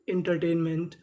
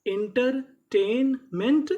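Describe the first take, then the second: First: Said in the usual way. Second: एंटरटेनमेंट stretched slowly, with a rising end; teacher modelling एंटरटेनमेंट slowly; slow drawn-out demo. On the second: Shown as a demonstration. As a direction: sound out एंटरटेनमेंट for the class. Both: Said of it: "तो पूरी meaning".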